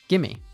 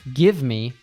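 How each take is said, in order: First: The two words are blended into one word. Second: Both words are said fully and separately. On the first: "she said, gimme" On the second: "Lisa didn't say, give me"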